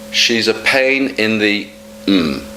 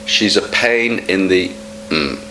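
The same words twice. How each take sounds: The two takes are said the same way.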